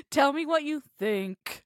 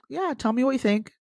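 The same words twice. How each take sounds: First: Deep flat voice. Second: A bit higher, inviting "tell me what you think"; inviting rise. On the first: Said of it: "Your voice going all deep". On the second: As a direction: ask them to go on, voice up. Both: Shown as a demonstration.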